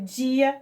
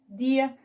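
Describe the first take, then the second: First: The d sounds like 'dj' before the i. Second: The d stays a plain d before the i.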